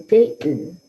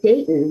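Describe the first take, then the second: First: "Dayton" split into two distinct beats; syllable by syllable. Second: Said in the usual way. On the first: Shown as a demonstration. Teacher shows the class syllable counting, "Dayton" broken in two. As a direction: clap out "Dayton" one syllable at a time. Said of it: "if I clapped a word out". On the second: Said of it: "we would say Dayton".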